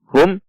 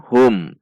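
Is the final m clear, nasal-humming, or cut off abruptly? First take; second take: abrupt; clear. First: The final m is cut off with a jolt. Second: The final m is pronounced clearly and evenly. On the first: The speaker calls it wrong. "atau dihentak seperti contoh hum" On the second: The speaker calls it right. "dibaca izhar syafawi atau dibaca jelas"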